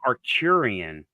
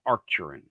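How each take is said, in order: First: An 'ee' sound comes before the final syllable. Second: No 'ee' sound comes before the final syllable. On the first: The speaker calls it wrong. "So it's not Arcturian" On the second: The speaker calls it right. "It's Arcturan"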